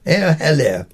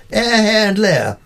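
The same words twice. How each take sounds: First: Run together. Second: Air, hair and lair said as three separate words with pauses; Air, hair and lair, each word apart and high; words said separately. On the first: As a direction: slur the three words together like one hello. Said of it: "Run them together and you have the classic drinks party greeting". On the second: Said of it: "Run them together". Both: Shown as a demonstration.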